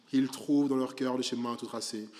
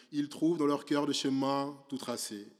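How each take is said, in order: The two takes are said the same way.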